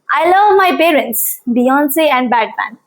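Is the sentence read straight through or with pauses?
straight through. The sentence runs on without pauses between items. The speaker calls it wrong. "Without punctuation"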